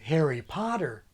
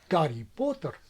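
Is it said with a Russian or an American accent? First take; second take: American; Russian. First: It is said with an American accent. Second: It is said with a Russian accent.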